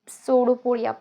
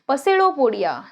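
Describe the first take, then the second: First: The word begins with an s sound, no p. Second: The word begins with a sounded p before s.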